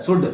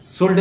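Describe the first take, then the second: First: शुड with no L before the D; silent L. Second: शुल्ड with an L before the D; L wrongly sounded. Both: Shown as a demonstration. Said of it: "शुल्ड नहीं बोला जाता है".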